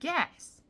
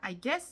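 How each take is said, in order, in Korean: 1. 'I'는 약한 모음으로 약화되어 발음해요. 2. 'I'는 강세를 주어 완전하게 발음해요. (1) "으라고 추천드려요" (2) "아니고"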